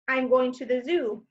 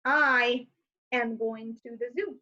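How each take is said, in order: First: Said in the usual way. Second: "I" then "am" set apart; stress on am. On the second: Shown as a demonstration. Teacher showing the long form of I'm. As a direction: split "I am" with a pause.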